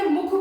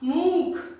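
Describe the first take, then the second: First: The u vowel after m is short. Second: The u vowel after m is long. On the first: "उसको मैंने छोटा ही रखा ध्वनि को" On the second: "वो लंबा था"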